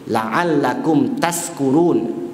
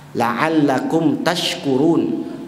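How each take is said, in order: First: The last word has an 's' sound. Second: The last word has an 'sh' sound. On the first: May you be among the drunk. The speaker calls it wrong. "Sya dengan sa" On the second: May you be among the grateful. The speaker calls it right. "Sya dengan sa"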